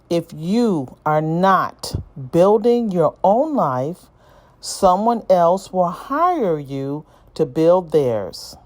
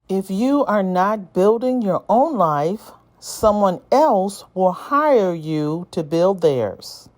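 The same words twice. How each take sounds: First: It is read slowly. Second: It is read at a normal pace.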